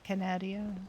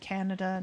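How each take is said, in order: First: The word ends with an added 'ee-a' sound. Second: The word ends with a plain 'da' sound. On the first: The speaker calls it wrong. "not Canada. There isn't an I in it" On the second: The speaker calls it right. "it's just actually Canada"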